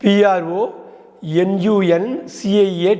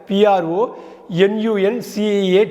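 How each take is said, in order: Both takes have the same delivery.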